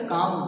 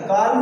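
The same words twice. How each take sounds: First: Said in the usual way. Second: काम with the silent L wrongly sounded; mispronounced काम, L audible; wrong pronunciation. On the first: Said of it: "क्या लिखा". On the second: Shown as a demonstration. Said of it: "नहीं बोलेंगे बेटा".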